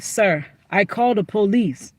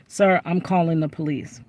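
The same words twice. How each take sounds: First: Lightly imitated broken English accent on "Sir, I called the police". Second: Said in the usual way. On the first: Restaurant lady warns the man, lightly imitated broken English accent. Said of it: "She said it like". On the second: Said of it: "she said it in broken English".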